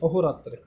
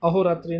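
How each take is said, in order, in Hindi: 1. शब्द का अंत छोटी 'a' ध्वनि से होता है। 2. शब्द का अंत अंतिम 'ee' स्वर से होता है। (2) "अहोरात्रि नहीं"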